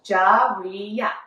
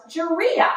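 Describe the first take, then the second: First: "Jaria" slowly split as Ja-ri-a; "Jaria" in three measured beats; syllable by syllable. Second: Said in the usual way. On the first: Shown as a demonstration. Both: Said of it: "that's three syllables".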